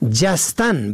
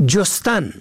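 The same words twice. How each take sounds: First: جستن said jastan, short a first; جستن pronounced jastan; fatha on first. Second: جستن said jostan, short o first; جستن pronounced jostan; damma on first. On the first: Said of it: "به فتح اول". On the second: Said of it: "به ضم اول". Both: Shown as a demonstration.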